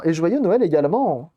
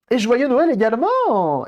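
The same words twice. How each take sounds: First: Said in the usual way. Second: Cheery greeting. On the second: Real, not acted.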